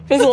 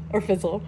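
First: Fizzle said louder, with a sharp falling stress; emphatic. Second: Said in the usual way. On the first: Shown as a demonstration. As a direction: punch out the word Fizzle.

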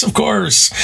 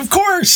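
First: Settling a little but still high and eager; smiling reassurance. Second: High bright eager reassurance, forcing the smile; faking cheer for a student after a terrible class; put-on cheerful smile. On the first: Retold or imitated. Teacher reassuring his student with a lingering put-on smile. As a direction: keep the forced smile going. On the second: Teacher forcing a smile to his student, much higher and eager. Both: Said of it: "you put on that smile".

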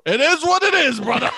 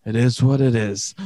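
First: High, hearty buddy dismissal; rousing reassurance. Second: Low, subdued acceptance; resigned sympathy. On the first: To a married buddy confessing a pregnancy, rousing and high. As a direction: belt it out to wave off trouble. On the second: To someone who says they have cancer, resigned and low. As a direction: offer it as helpless consolation. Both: Acted.

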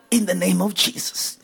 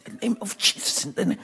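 First: Quiet, low prayerful murmur; half-voiced prayer, drawing inward; soft prayer. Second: Breathy whisper, much softer; whispered prayer. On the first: Praying softly for the congregation, low and hushed. Repeated prayer phrase, softer. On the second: Preacher whispering the prayer to the Father. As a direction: breathe the name like a secret prayer. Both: Real, not acted.

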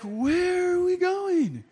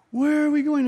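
First: High, slow, drawn-out worried voice; pitched-up fretful wondering; anxious question. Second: Urgent worry. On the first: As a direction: let the worry stretch each word out. Worried self in taxi, lost. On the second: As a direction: press the question harder this time. Repeats worry, more urgent. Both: Retold or imitated.

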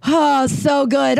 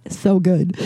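First: Higher, slow, drawn-out "so good"; relishing the punchline, slow and higher; savoring delight. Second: Said in the usual way. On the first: Real, not acted.

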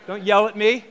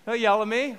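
First: Louder, half-joking plea to the crowd; playfully begging the room not to yell back; mock plea. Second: Said in the usual way. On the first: Pastor teasing his congregation, louder mock plea.

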